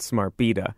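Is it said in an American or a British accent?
British. Beta is said the British way.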